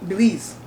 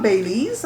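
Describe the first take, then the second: First: "Belize" said bih-LEEZ; short "bih" in "Belize"; correcting Belize. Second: "Belize" said bay-LEEZ; long "bay" at the start of "Belize"; others' mispronounced Belize. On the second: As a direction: imitate outsiders saying "Belize" as bay-LEEZ. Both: Retold or imitated. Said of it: "We correct them".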